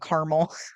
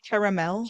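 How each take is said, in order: First: It is said with the American pronunciation. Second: It is said with a non-American pronunciation. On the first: "Americans are allowed to say caramel" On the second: "instead of caramel"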